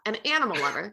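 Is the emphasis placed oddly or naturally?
naturally. The emphasis falls in the natural place.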